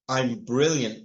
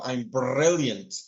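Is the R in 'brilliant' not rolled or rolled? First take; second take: not rolled; rolled. First: The R in brilliant is not rolled. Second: The R in brilliant is strongly rolled. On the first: "we don't say" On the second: "We roll the letter R"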